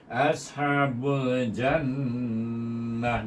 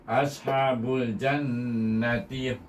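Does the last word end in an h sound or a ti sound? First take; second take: h sound; ti sound. First: The last word ends in an h sound. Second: The last word ends in a ti sound. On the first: The reciter stops after this word. "Kalau anda lah kita berhenti, kita tukar tamal butah kepada ha damir" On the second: The reciter carries on into the next word. "kalau kita menyambung, kita baca dengan ta"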